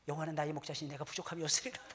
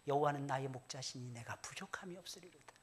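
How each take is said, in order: First: It is recited at a faster pace. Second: It is recited at a calm, slow pace.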